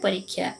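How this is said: It is said with an Odia pronunciation. "Odia उच्चारण"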